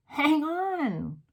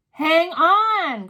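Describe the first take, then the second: First: A high urgent call. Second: Loud cry. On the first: Mildred asking the room to wait, high call. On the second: Mildred crying out to the room, loud and high. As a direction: Hang on high and loud, cried out. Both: A narrator's reading. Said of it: "cried the witch called Mildred".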